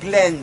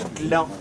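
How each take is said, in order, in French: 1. Le nom a un 'e' ouvert, à l'anglaise. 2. Le nom a une voyelle nasale française 'an'. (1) "Ça se prononce Glend" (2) "pas Gland"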